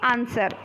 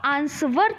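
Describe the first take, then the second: First: No w sound is pronounced after the n. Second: A w sound is pronounced after the n. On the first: The speaker calls it right. "आंसर बोलते हो" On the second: The speaker calls it wrong. "आप आंसवर तो नहीं बोलते हो"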